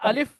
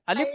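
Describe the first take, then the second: First: The word ends with an f sound. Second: The word ends with a p sound. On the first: The speaker calls it right. "हमने अलिफ पढ़ना है" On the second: The speaker calls it wrong. "अलिफ नहीं पढ़ना है"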